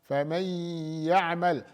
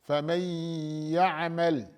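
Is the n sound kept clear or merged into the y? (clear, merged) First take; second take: merged; merged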